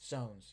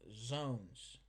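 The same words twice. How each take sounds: First: The word begins with an S sound. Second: The word begins with a Z sound. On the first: The speaker calls it right. "with an S" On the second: The speaker calls it wrong. "not with a Z, with an S. I just said it funny"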